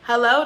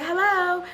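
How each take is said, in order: First: Said in the usual way. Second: Put-on higher-pitched girl answering; girl on the phone. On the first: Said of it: "a female picks up and I'm like". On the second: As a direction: lightly imitate a girl's hello. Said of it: "The girl's like".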